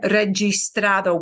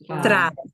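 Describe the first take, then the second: First: The g sounds like an English j. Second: The g sounds like an English h. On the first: The speaker calls it wrong. "We won't have registrado" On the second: The speaker calls it right. "That G I will be a he"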